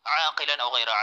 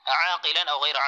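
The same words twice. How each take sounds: The two takes are said the same way.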